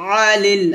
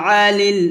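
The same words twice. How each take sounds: No difference in how they are said.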